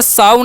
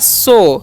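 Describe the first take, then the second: First: The vowel sounds like 'ow'. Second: The vowel sounds like 'oh'. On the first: The speaker calls it wrong. "यहाँ पर साव नहीं पढ़ना है" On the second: The speaker calls it right. "ओ करना है"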